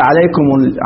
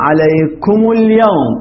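First: عليكم said with a silent mim, alekum, and no vowel before ال; the form to avoid, عليكم with no damma; wrong form shown. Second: عليكم اليوم with the final mim given a clear u, alekumu l-yawm, said slowly; slow teaching demo, عليكمُ اليوم with a voiced damma. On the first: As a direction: cut عليكم off on a bare mim. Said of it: "ما نقول عليكم". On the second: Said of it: "هي أصل عليكم". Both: Shown as a demonstration.

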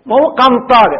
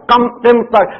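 First: Said in the usual way. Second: قمطر with kasra on qaf and fatha on mim; corrected pronunciation. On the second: Shown as a demonstration. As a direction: say قمطر as qimatr, mim moving. (قمطر بكسر القاف وفتح الميم)

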